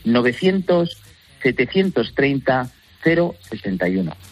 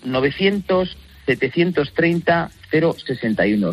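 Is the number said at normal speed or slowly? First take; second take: slowly; normal. First: The number is said slowly. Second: The number is said at normal speed.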